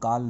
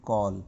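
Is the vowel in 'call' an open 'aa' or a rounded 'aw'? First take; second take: aa; aw. First: The vowel is an open, unrounded 'aa' sound. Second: The vowel is a rounded 'aw' sound. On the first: The speaker calls it wrong. "इसको काल नहीं पढ़ना है" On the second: The speaker calls it right. "ये है कॉल"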